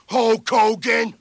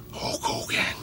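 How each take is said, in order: First: Shouted name. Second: Breathless whisper of the name. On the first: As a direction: belt out the name. Commanding a dive. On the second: Announcer whispering the wrestler's name before the roar. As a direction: hiss the name under your breath. Drill sergeant barking at pilot. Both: Acted.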